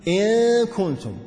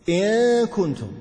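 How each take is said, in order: No difference in how they are said.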